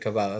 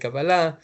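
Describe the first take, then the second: First: It is said the way Americans say it. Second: It is said the way Israelis say it. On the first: "Americans will say Kabbalah" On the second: "Israelis will say Kabbalah"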